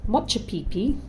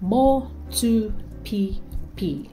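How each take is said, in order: First: The second consonant is a 'ch' sound. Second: The second consonant is a plain 't' sound. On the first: The speaker calls it wrong. "Don't say Motchupipi" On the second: The speaker calls it right. "Try Motupipi"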